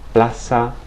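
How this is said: The z sounds like an s. This is how it is said in Latin America. "it always represents the S sound in Latin American dialects"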